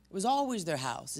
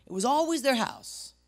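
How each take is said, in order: First: Said in the usual way. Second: "It was always their house" shouted, much higher and louder, hitting "always"; fired-up shout. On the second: Real, not acted. Pastor driving his point home to the congregation, shouting. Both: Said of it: "I got fired up".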